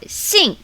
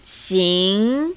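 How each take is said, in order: First: The syllable is said with tone four. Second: The syllable is said with tone two. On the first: "Tone four" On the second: "Tone two"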